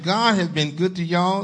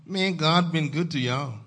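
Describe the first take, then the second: First: Louder, higher, insistent preaching; emphatic repeat. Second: Raised, hearty preacher's declaration; preaching statement. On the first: Pastor making sure Zion heard him, emphatic repeat. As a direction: drive it home to the congregation, pitched up. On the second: Pastor telling Zion God has been good, first declaration. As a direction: state it firmly to the congregation. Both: Real, not acted. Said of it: "did y'all hear what I said".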